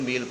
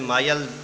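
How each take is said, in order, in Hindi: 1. स्वर एक लंबी 'ee' ध्वनि है। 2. स्वर 'eye' जैसा डिफ़्थॉन्ग है। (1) "बहुत सारे स्टूडेंट्स गलती करते हैं, इंग्लिश में भी इसको मील पढ़ते हैं" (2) "इंग्लिश में माइल या माइल्स बोलते हैं"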